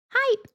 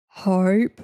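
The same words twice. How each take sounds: First: Very high squeaky "Hype"; high-pitched. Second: Loud "Hype" in her normal low register; lower-pitched take. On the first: Streamer offering viewers a second take, high-pitched. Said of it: "It was definitely the high-pitched one". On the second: Streamer showing viewers how it was said, lower take. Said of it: "You said it like this". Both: Shown as a demonstration.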